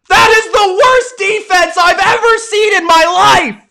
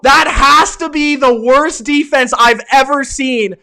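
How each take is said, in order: First: High, loud disbelief on worst; outraged shout. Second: Said in the usual way. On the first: Real, not acted. Streamer yelling at the Packers defense, outraged shout. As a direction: shout it at the screen.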